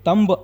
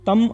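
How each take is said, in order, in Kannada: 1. ಪದ ಸ್ಪಷ್ಟವಾದ b ಶಬ್ದದಲ್ಲಿ ಕೊನೆಗೊಳ್ಳುತ್ತದೆ. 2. ಪದ m ಶಬ್ದದಲ್ಲಿ ಕೊನೆಗೊಳ್ಳುತ್ತದೆ. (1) "ಇದು ತಂಬ್ ಅಲ್ಲ" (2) "ತಮ್ ಅಂತ ಹೇಳಿ"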